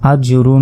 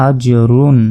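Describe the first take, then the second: First: আজ রুন with a nasal hum on the ন; wrong ghunna demo. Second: Said in the usual way. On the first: Shown as a demonstration. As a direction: show the mistake, humming the ন of রুন. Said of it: "এরকম গুণনা করব না". (ভুল করে গুন্না দিয়ে আজ রুন) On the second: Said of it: "এখানে কিন্তু আমরা গুণনা করব না".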